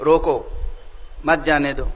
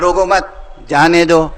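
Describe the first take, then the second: First: There is a pause right after roko. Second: There is a pause right after mat.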